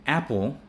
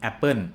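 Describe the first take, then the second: First: Apple ending in a dark 'ul', close to O; correct ending. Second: Apple ending in N, 'ap-pern'; imitated learner saying 'appun' for apple; Thai learner's mispronunciation. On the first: Shown as a demonstration. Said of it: "we read them as O". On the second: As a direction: end apple on an N instead of L. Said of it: "I hear people saying".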